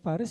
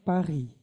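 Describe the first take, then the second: First: The final s sound is pronounced. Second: The final s sound is silent. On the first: "kalau baca Paris" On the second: "bilangnya Paris. S-nya silent"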